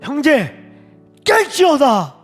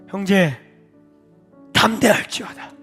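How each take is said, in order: First: It sounds like picking a fight. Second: It sounds warm and affectionate.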